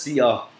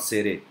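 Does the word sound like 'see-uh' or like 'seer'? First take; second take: see-uh; seer. First: The word sounds like 'see-uh' with no r. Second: The word sounds like 'seer' with an r. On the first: The speaker calls it right. "It is pronounced as Sia" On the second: The speaker calls it wrong. "not Sere"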